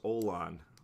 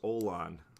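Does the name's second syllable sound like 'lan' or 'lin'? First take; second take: lan; lan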